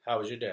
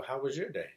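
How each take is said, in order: First: Said in the usual way. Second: "your" lifted higher, then falling; stress on YOUR. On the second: Retold or imitated. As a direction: turn the question back by leaning on "your". Dad returns the same question.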